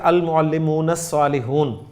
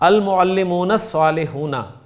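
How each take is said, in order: First: The last word ends without its final vowel. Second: The final vowel of the last word is pronounced. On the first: "इसको मैं ऐसे भी कह सकता हूं" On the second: "मैं आखिरी हर्फ की हरकत बोल रहा हूं"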